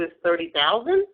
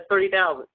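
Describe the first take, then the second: First: The voice rises at the end, like a question. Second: The voice falls confidently at the end. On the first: The speaker is hoping the seller agrees. The speaker calls it wrong. "I went up like, okay, well, I hope you say yes" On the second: The offer is firm and final. The speaker calls it right. "Make sure you say that with confidence"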